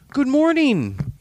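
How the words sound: It is said in a warm, friendly tone. "I just said good morning in my friendly voice"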